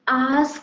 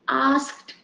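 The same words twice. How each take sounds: First: The word ends with a d sound. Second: The word ends with a t sound. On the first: The speaker calls it wrong. "we people think, because at the end D is there" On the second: The speaker calls it right. "the correct pronunciation of this word is asked"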